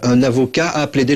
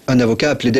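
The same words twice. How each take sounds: First: The phrase is said at a slower pace. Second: The phrase is said at a quicker pace.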